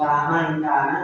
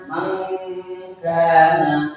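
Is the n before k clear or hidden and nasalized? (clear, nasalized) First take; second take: clear; nasalized. First: The n is pronounced clearly and fully. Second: The n is hidden in a nasal sound. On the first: The speaker calls it wrong. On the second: The speaker calls it right. "maka dibacanya Mangkana"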